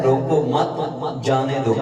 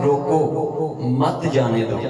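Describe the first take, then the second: First: روکو مت joined, then جانے دو apart; pause after مت. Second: روکو set apart, then مت جانے دو run together; pause after روکو. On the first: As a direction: run روکو into مت, break before جانے دو. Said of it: "اس نے پڑھا ہے". (روکو مت ایک ساتھ، پھر وقفہ، جانے دو) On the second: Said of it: "میں نے لکھا تھا". (روکو کے بعد وقفہ، پھر مت جانے دو ایک ساتھ) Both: Shown as a demonstration.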